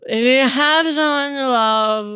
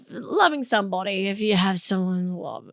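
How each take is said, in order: First: Loud, drawn-out mock-bitter repeat; slow, strained comic resentment; mock bitterness. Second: Said in the usual way. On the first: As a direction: stretch it out loudly, as if it stings. Bitter repeat on Valentine's Day.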